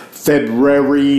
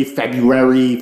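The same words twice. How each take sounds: First: February said slowly and louder as Feb-ru-ary, both r's sounded; February spelled out syllable by syllable, with the r; careful pronunciation. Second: February said as Feb-yoo-air-ee, first r dropped; February said the everyday way, Feb-yoo-ary; February with the r slurred into a y; casual pronunciation. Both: Shown as a demonstration. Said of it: "I fucking hate this, February, saying that word".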